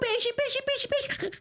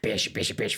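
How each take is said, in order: First: The voice sounds soft and cute. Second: The voice sounds harsh and not cute.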